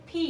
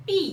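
First: পি said with a breathy aspirated p; correct pronunciation. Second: পি said the common local way, unaspirated; the way many wrongly say পি; common mispronunciation. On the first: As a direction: puff air on the পি. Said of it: "কিন্তু এটা সঠিক উচ্চারণ আসবে হচ্ছে". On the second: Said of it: "আমরা অনেকে উচ্চারণ করে থাকি এটা". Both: Shown as a demonstration.

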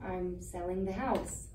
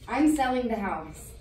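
First: Softer, lower, slow admission; subdued, careful bad news; gentle repeat. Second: Firm, plain-spoken bad news; decisive, out in the open; firm announcement. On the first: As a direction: break it gently and slowly. Repeats news after shocked What. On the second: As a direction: announce it outright, stressing I'm. Breaks news to sister.

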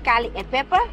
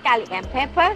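No difference in how they are said.

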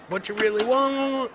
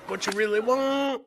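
The two takes are said the same way.

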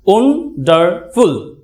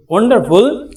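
First: Slow "wonderful" broken into three syllables; syllable split. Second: Said in the usual way. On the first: Shown as a demonstration. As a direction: spell out "wonderful" slowly, beat by beat. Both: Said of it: "try syllable বলে".

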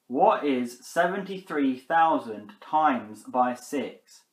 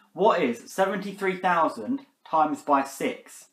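First: Even slower, deliberate question; repeating to voice assistant. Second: Slow, careful question to Siri; asking voice assistant. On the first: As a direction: spell it out more slowly. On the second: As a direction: spell it out for the phone. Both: Real, not acted. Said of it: "Are you stupid, Siri?".

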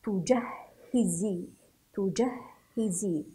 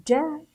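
First: تجهزي slowly with doubled h and kasra; joined-up reading. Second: تجهزي split into tu, jah, hi, zii, higher and louder; syllable-by-syllable reading. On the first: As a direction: blend تجهزي, leaning on the hh. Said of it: "هكذا نقرأها". (نطق تجهزي موصولة مع تشديد الهاء) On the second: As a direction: sound out تجهزي in separate syllables. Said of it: "نقرأ هذه الكلمة". (تهجئة تجهزي مقطعًا مقطعًا) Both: Shown as a demonstration.

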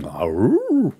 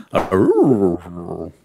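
First: Short mock wolf howl. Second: Louder cartoon dog howl; Scooby-Doo howl. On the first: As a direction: howl like Wolfman Jack. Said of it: "That was a bit of a". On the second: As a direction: do a goofy Scooby-Doo "Arroo". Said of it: "More like Scooby-Doo than Wolfman Jack". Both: Shown as a demonstration.

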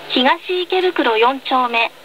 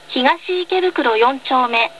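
Both takes have the same delivery.

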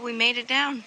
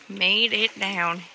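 First: Said in the usual way. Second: Slow, loud "Made it down"; drawn-out emphasis. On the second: Real, not acted. Vlogger repeats her arrival for viewers, slow emphatic "Made it down". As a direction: stretch out each word of "Made it down".

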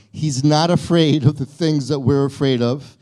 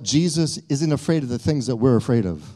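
First: He's not afraid of the things, said louder with a rise on afraid; emphatic restatement. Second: Said in the usual way. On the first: Shown as a demonstration. Pastor restating for the congregation, louder with afraid rising. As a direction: lean on "afraid" and lift it so it lands. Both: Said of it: "I want you to hear it said this way".

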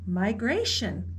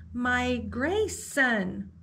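First: Said in the usual way. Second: Drawn-out, slow and awed; slow wondering repeat. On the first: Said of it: "answered the guide". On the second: Acted. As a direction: savour the new word slowly. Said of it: "repeated Velma".

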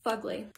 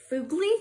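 First: "Fugly" said as FUG-lee, soft and low; corrected pronunciation. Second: "fugly" read as FOO-glee, rising; mispronounced word. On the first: Daughter correcting her mom's reading, "Fugly" as a quiet FUG-lee. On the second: Mom puzzling over her daughter's list, "fugly" as a questioning FOO-glee. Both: Acted.

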